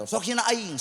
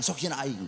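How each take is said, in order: First: Pitched higher, a taunting mock challenge; higher mock taunt: "hina aing" tossed up and out; mocking dare. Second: Said in the usual way. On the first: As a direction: throw the dare out like a cocky heckler.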